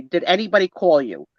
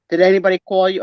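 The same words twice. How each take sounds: First: Said in the usual way. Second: Louder hint of an Italian accent; lightly attempted Italian accent; mother's Italian accent. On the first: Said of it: "I'm not gonna do her accent". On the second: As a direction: imitate mom's Italian-accented question. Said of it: "with a thick Italian".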